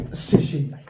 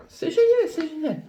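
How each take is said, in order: First: Said in the usual way. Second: Squeaky high delighted "génial"; exclamation très aiguë. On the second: Real, not acted. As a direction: shriek "c'est génial" with joy. ("c'est génial" crié tout en haut de la voix)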